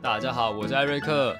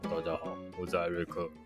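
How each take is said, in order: First: He says it in his normal voice. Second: He says it in a put-on voice.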